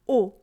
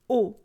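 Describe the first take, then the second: First: The vowel stays short and steady. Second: The vowel stays short and steady.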